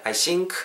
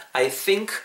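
First: "think" said with an SH-like S, as in "sink"; wrong TH sound. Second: "think" with a true TH, tongue out; tongue between the teeth to start "think"; correct TH sound. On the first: Teacher showing learners the mistake, "think" mispronounced as "sink". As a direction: turn the TH of "think" into a hissed S. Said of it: "라고만 발음 안 하시면". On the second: Teacher correcting learners, clear TH at the start of "think". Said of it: "티에이치 발음". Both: Shown as a demonstration.

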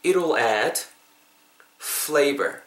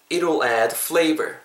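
First: "It'll add", a long pause, then "flavor"; broken into parts. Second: "It'll add flavor" in one go without a break; straight through. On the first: Teacher asking learners to repeat, phrase in two chunks. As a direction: split it before "flavor" for repeating. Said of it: "이거 한번 따라해 보세요". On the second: Teacher having learners follow in one go, joined-up phrase. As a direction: run "It'll add flavor" together, no pause. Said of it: "한 번 쭉 할 테니까". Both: Shown as a demonstration.

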